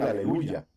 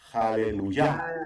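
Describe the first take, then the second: First: The word begins directly with a vowel sound. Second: The word begins with a breathy h sound. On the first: The speaker calls it wrong. "lo correcto no es decir" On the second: The speaker calls it right. "Lo correcto es decir"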